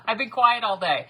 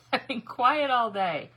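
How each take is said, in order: First: Loud protest broken by laughter; laughing protest. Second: Drawn-out protest. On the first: Crafter answering a complaint about her noise, laughing protest. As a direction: laugh while pleading your innocence. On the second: Repeats her protest more drawn out. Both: Real, not acted.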